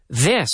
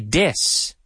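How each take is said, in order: First: The word starts with a voiced th sound. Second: The word starts with a d sound. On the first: The speaker calls it right. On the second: The speaker calls it wrong.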